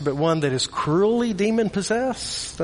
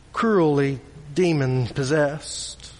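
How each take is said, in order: First: "cruelly" lifted with a rising, searching tune; stress on cruelly. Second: Said in the usual way. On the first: Shown as a demonstration. Preacher dwelling on how cruel the possession is, stress on "cruelly". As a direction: lean on "cruelly" in disbelief.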